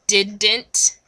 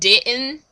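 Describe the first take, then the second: First: It is said carefully, without the Southern accent. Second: It is said naturally in a Southern accent. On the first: "My drama teacher tried to teach me how to say didn't" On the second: "instead of didn't"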